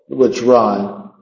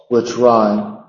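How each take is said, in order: The two takes are said the same way.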